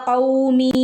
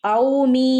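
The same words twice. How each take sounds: No difference in how they are said.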